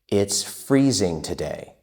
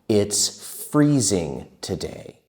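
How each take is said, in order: First: It is spoken at a moderately quick pace. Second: It is spoken at a slow, careful pace.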